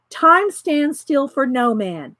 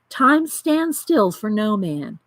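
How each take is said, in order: First: It is read in the speaker's ordinary voice. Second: It is read in a put-on character voice.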